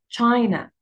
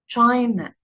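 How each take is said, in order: The two takes are said the same way.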